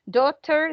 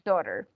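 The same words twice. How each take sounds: First: It is said in a British accent. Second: It is said in an American accent.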